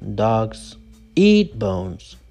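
The stress is on 'eat' only. The speaker calls it wrong. "You don't say dogs eat bones"

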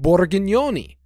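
The name is said in a thick Italian accent.

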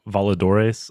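The name is said with a Spanish pronunciation.

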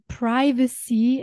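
It is said with an American English pronunciation. "As we say in American English, we say privacy"

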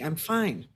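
The voice sounds tense and edgy. The speaker is stressed and on edge. "There was a sympathetic edge to that"

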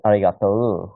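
Kansai dialect, with an elongated final vowel.

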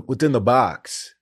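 It is asked in a desperate way.

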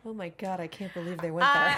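It is said in a grim, dawning-realization tone. The speaker is horrified by what is happening. "saying the same thing with a dark realization of what's occurring in front of you"

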